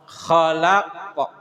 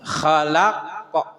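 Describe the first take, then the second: First: The word ends on an echoing, bounced q. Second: The same.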